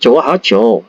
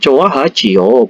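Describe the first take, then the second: First: The ending is contracted into one syllable. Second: The ending is said fully as two syllables. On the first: The speaker calls it right. "dalam percakapan nyata itu untuk mempermudah pengucapan Coa Hajo" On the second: The speaker calls it wrong. "bukan Coa Hajio"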